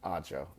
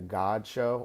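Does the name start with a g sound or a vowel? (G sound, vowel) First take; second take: vowel; G sound. First: The name starts with a vowel sound. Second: The name starts with a hard g sound. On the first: The speaker calls it right. "The G is silent" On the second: The speaker calls it wrong. "I keep on pronouncing it God Show"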